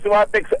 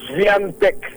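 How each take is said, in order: First: The name begins with a plain 'swa' sound. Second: The name begins with a 'swi' sound. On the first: The speaker calls it wrong. "hindi po Swatex ang pronunciation" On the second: The speaker calls it right. "kasi Polish ito"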